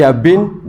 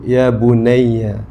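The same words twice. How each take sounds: First: Plain address. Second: Slow, tender call to a son; tender address. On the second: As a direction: stretch it out gently, like a loving father. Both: Shown as a demonstration.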